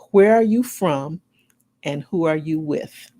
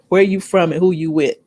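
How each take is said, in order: First: It is said in a careful, formal way. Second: It is said in a relaxed, casual way.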